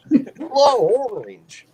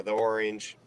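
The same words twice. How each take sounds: First: Southern "thuh orange", high and stretched; Southern accent. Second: "the orange" with THE as "thee". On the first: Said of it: "that's the southern the". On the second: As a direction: rhyme "the" with "see" before "orange". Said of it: "technically say it like the". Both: Shown as a demonstration.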